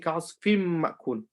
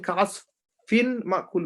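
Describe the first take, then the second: First: The n merges into a nasalized m. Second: The n is pronounced separately before the m. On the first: The speaker calls it right. "we say ... We ignore or we merge and we do gunna" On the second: The speaker calls it wrong. "instead of saying"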